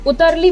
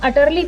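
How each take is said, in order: First: The first vowel sounds like 'u' in 'put'. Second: The first vowel sounds like 'a' in 'about'. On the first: The speaker calls it right. "हम उतरली pronounce करेंगे" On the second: The speaker calls it wrong. "अटरली pronounce ना कर करके"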